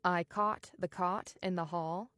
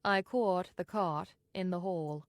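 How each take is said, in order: First: "caught" and "cot" both said as "kaht"; merged caught-cot vowels. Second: "caught" with rounded "aw", kept apart from "cot"; distinct transatlantic vowels. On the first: Teacher giving the merged example, "caught" sounding identical to "cot". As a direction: say "caught" exactly like "cot", American style. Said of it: "are pronounced the same way". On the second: Teacher giving the transatlantic version, "caught" as a rounded "kawt". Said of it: "you should maintain a distinction between the two". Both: Shown as a demonstration.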